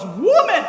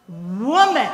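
First: Louder, sharp sassy retort, falling. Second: Louder, clipped sassy retort; Jesus answering his mother sassily. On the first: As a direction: fire it back like a cheeky son. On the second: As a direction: toss the word back with attitude. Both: Retold or imitated. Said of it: "kind of sassy almost".

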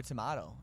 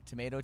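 First: Tomato said tuh-MAH-toh, falling; tomato with broad A. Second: Tomato said tuh-MAY-toh, rising; tomato with long A. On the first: Host shrugging off pronunciation differences, broad-A tomato. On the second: Host shrugging off pronunciation differences, long-A tomato. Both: Shown as a demonstration. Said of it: "it's whatever".

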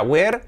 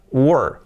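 First: "were" like "wear", open e, rising; wrong pronunciation. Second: "were" as wer with central vowel, falling; correct pronunciation. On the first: Teacher recalling the mistake to avoid, wrong pronunciation. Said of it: "Era, no era were, no". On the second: Teacher correcting the past of to be, correct pronunciation. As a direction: say "were" rhyming with "her". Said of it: "no, era were". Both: Shown as a demonstration.

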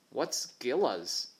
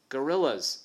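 First: "gillas" said slowly, the "or" dropped; mispronounced gorillas. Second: "Gorillas" said in full, firmly; correct pronunciation. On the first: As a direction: say "gillas" slowly, like a child mishearing. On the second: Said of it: "What's gillas?". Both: Acted.

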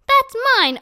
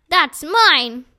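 First: Much higher, loud yell of ownership; higher, louder repeat of the shout; shrill shout. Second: Loud yell of ownership; shouting mine at the dog; shouted claim. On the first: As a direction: screech it, desperate now. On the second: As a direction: shout it after the fleeing dog. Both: Acted. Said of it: "Ernest shouted".

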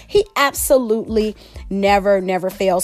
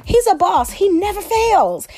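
First: Said in the usual way. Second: High, excited praise; excited gushing. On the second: Real, not acted. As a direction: gush about him, pitched up.

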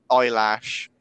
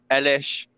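First: EYELASH in place of Eilish; long "eye" opening on EYELASH; mock alternative pronunciation. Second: Short e opening on EILISH; one pronunciation variant. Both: Shown as a demonstration. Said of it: "whatever her name is".

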